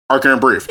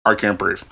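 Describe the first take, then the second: First: Second imitated plea, slightly firmer; a little louder. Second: Deep, soft imitated plea; lowest deepest tone. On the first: Rider's second plea imitated, a little bit louder. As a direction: mimic him a little louder, still contained. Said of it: "it was a little bit louder". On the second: Teller imitating the struggling rider, deep low tone. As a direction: drop low and quiet, mimicking him. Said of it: "like, the lowest but deepest tone".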